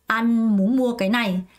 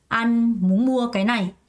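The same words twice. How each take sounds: The two takes are said the same way.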